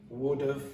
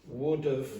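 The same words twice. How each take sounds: Both takes have the same delivery.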